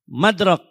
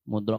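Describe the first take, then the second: First: The first vowel is an open 'a' sound. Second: The first vowel is a rounded 'u' sound. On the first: The speaker calls it wrong. "Mimnya dikasih harakat fathah" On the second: The speaker calls it right. "Yang betul pakai dhammah mim"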